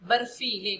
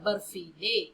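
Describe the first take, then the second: First: It is said as one word without a pause. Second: A short pause comes before the last syllable. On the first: It means full of snow. "बर्फीले माने क्या है, बर्फ से भरा हुआ" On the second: It tells someone to take a sweet. "उसे लेने के लिए कहती है बर्फी ले।"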